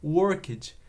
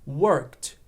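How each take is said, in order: First: The ending is an extra open 'ed' syllable. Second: The ending is a single T sound. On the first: The speaker calls it wrong. "Eu escuto muita gente falando worked, porque esse ed aberto vem da nossa pronúncia do português" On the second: The speaker calls it right. "Com som de T ali esse ed"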